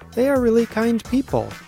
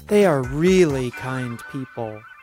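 First: The word really has normal, unforced stress. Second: The word really is said with strong force.

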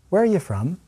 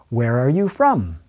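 First: The middle words are reduced and shortened. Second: The middle words are said fully and clearly.

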